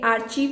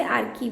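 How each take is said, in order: First: आर्चीव said as aar-cheev with a ch sound; archive pronounced archeev. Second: आर्कीव said as aar-keev with a k sound; archive pronounced arkeev. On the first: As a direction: say आर्चीव with ch, ending in -eev. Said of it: "इसे आर्चीव भी पढ़ते हैं". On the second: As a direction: say आर्कीव with k, ending in -eev. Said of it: "बहुत से लोग इसे आर्कीव भी पढ़ते हैं". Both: Shown as a demonstration.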